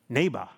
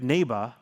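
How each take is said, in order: First: The word is said in a thick Austrian accent. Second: The word is said in a plain American accent. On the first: The speaker calls it wrong. "his thick, iconic Austrian accent comes through, and he keeps saying" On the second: The speaker calls it right. "trying to get him to finally say it right"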